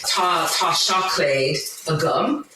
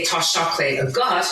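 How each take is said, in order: First: "Tá chocolate a gum" spoken slowly in Irish, ending rising on "gum"; Irish phrase demo. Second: "Tá chocolate a gut" in Irish, ending on "gut" with a rise; Irish phrase demo. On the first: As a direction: carefully sound out "a gum" as the form for "I have". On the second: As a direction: sound out "a gut" so it contrasts with "a gum". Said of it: "if I wanted to say". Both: Shown as a demonstration.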